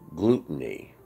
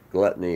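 First: The first part sounds like the word 'gluten'. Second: The first part sounds like the word 'glut'. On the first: The speaker calls it right. "Gluttony is gluttony" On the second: The speaker calls it wrong. "that's mispronounced"

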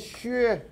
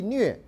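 First: The character is given its mainland Chinese reading. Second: The character is given its Taiwanese reading. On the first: "中国大陆呢念削" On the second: "我们在台湾就没有什么问题，这念戏虐"

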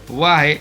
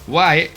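No difference in how they are said.

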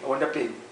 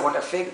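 First: The last word begins with a P sound. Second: The last word begins with an F sound. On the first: "Anything started with F, he pronounced it a P" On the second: "if you say"

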